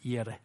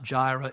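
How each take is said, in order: First: The word begins with a y sound. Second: The word begins with a j sound. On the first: The speaker calls it right. "it's Yireh" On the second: The speaker calls it wrong. "it's not Jireh"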